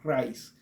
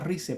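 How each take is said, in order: First: The name is pronounced the English way. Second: The name is pronounced the Spanish way. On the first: The speaker calls it right. "para mencionarlo, digamos, más correctamente" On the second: The speaker calls it wrong. "para mencionarlo en español sería Rice"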